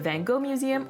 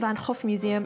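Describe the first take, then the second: First: The name is pronounced the English way. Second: The name is pronounced the Dutch way.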